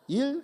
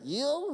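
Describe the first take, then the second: First: It is said the Korean way, short and clipped. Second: It is said the English way, like 'ill'. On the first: "내가 일이다 그래요" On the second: "이요 그러니까 아프다는 얘기잖아요"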